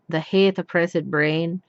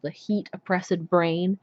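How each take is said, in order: First: The second word has the vowel of 'hate'. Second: The second word has the vowel of 'heat'. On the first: This is how it was said in Shakespeare's time. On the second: This is how it is said in modern English.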